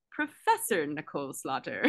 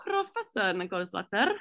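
First: Said in the usual way. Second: Professor with the R trilled at the start; rolled r. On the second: Shown as a demonstration. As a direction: roll the R in Professor. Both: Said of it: "Please roll the R on that".

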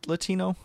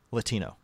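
First: "Latino?" said with an unsure rising tune; unsure question. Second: "Latino." said with a settled falling tune; settled statement. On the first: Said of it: "It's pronounced". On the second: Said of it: "it's spelled B A I L A". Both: Shown as a demonstration.

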